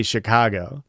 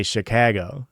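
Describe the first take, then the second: First: Chicago said with a back, open "ah" in the middle; round-toned open A in Chicago. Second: Chicago said with the "a" of cat; fronted "a" as in cat in Chicago; Chicago with flat a. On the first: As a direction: say Chicago as "shi-KAH-go". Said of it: "you guys say Chicago". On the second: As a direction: say Chicago as "shi-KAG-o". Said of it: "but I say Chicago". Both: Retold or imitated.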